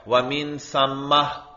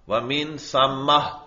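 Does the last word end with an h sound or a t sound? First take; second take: h sound; h sound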